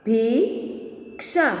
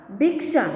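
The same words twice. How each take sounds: First: Slow, each sound drawn out, rising at the end; slow drawn-out reading. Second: Said in the usual way. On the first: Shown as a demonstration. Teacher slowly sounding out a word for students, drawn out. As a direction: stretch the word slowly for the class. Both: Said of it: "अब इसका शब्द हम देखें".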